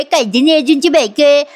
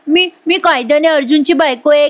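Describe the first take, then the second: First: Higher, exaggerated mocking whine on "कायद्याने अर्जुनची बायको आहे"; hammed-up mimicry. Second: Higher mimicking of the wife's claim; mock imitation. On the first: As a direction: ham up her old line. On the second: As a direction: parrot her words back. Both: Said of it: "तू मला नेहमी ऐकवायचीस".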